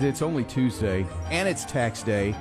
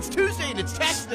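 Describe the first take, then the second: First: It sounds gloomy and down. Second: It sounds upbeat and cheerful.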